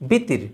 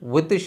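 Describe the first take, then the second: First: The word starts with a b sound. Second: The word starts with a w sound. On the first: The speaker calls it wrong. "আমরা উচ্চারণ করছি বিতির" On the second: The speaker calls it right. "ওয়েতির শব্দটাকে"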